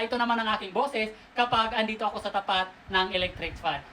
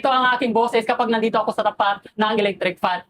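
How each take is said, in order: First: Windy fan noise is heard behind the voice. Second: No fan noise is heard behind the voice. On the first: The speaker calls it wrong. "Kung maririnig nyo yung background noise, mahangin, hindi magandang pakinggan" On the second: The speaker calls it right. "wala na yung background noise ng electric fan na ito"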